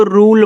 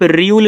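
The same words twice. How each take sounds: First: "रूल" with a plain long oo, no glide; correct pronunciation. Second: "र्यूल" with a y-glide after the r; wrong pronunciation. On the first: Teacher showing students how it is read, "रूल" said rool without a y. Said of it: "इसको रूल पढ़ते हैं". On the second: Teacher showing students the reading to avoid, "र्यूल" said r-yool. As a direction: say "र्यूल" as r-yool, gliding into the long u. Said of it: "आर U L E को आप र्यूल नहीं पढ़ोगे". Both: Shown as a demonstration.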